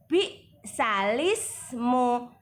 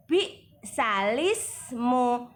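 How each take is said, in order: First: The l sound is joined straight onto ismu. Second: The l sound is joined straight onto ismu.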